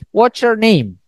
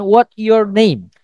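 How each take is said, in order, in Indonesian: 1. Bunyi t dan y menyatu menjadi bunyi ch. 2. Bunyi t dan y diucapkan terpisah.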